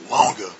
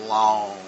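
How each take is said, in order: First: The final g is released hard and audibly. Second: The final g is barely heard, softly slid into. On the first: The speaker calls it wrong. "wrong, wrong, wrong. That's bad pronunciation" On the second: The speaker calls it right. "you got to slide into this word long. Hear that?"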